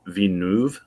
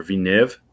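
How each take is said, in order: First: Villeneuve ending in "noov"; tentative French pronunciation. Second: Villeneuve ending in a short "niv"; alternative pronunciation. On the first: Guessing the director's name for co-hosts, Villeneuve as "vee-noov". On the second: Offering co-hosts another guess, Villeneuve as "vee-niv". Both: Shown as a demonstration. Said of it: "I think his, his name's pronounced".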